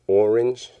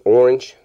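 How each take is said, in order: First: The word is enunciated into separate syllables. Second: The word is said plainly, squeezed together. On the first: "you enunciate it and you make it like more than one syllable" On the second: "you just say orange"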